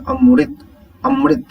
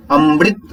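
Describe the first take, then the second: First: अमृत said high and clear, with a crisp "मृ"; correct pronunciation. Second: अमृत said as "अम्ब्रित", with an extra b sound; wrong pronunciation. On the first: Teacher corrects the pupils with a high, clear अमृत. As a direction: pronounce अमृत cleanly as अम-रित, set against the wrong take. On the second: Teacher shows pupils the wrong अमृत, said as अम्ब्रित. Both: Shown as a demonstration. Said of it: "अमृत नहीं कहेंगे".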